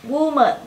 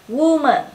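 The two takes are said the same way.

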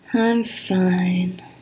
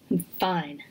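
First: It sounds confident, as if feeling attractive. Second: It sounds angry and not fine.

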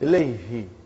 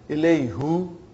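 First: The word ends with an 'ee' vowel. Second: The word ends with an 'oo' vowel. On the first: The speaker calls it right. "You can pronounce with ease" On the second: The speaker calls it wrong. "It takes extra effort. And even also, it doesn't sound nice to the ear"

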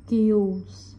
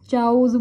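First: The word begins with a 'k' sound. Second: The word begins with a 'ch' sound. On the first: The speaker calls it right. "इसको क्या pronunciation" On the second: The speaker calls it wrong. "बड़ा भी common सा ना चाउज बोल देते हैं"

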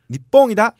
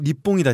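First: It is said with lively, exaggerated intonation. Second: It is said plainly with little intonation.

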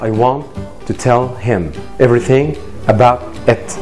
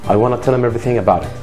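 First: Each word is said separately, like a robot. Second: The words flow smoothly into each other. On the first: The speaker calls it wrong. "طبعا فيش كلام ده كده، إنسان قلبي بيتكلم" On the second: The speaker calls it right. "لو قلناها بانسيابية شوية"

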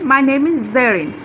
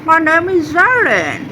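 First: It is said plainly, without any put-on accent. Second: It is said with an exaggerated, affected English accent. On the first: "যেমন" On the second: "সেটা বলবে"

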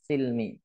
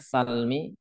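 First: The vowel after the S is 'i'. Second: The vowel after the S is 'a'. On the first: "bisa dibaca kasroh" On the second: "bisa dibaca fathah sinnya"

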